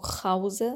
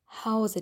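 First: The first sound is a raspy, ch-like h. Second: The first sound is a soft, breathy h. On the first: The speaker calls it wrong. "hier sagen wir nicht zu Hause" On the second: The speaker calls it right. "Die Zunge liegt ganz flach im Mund und die Luft strömt ganz leicht heraus"

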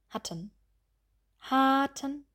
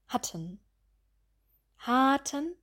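The two takes are said the same way.

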